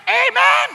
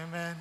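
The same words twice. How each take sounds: First: High, loud drawn-out worship-leader amen; hammed-up leader amen, higher and louder; mock amen. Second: Very soft, low congregation amen; a tired half-hearted low amen; mumbled amen. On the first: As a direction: belt a hyped amen like the leader. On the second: Retold or imitated. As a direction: answer back barely audible, unenthused. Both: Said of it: "Tapos sabi".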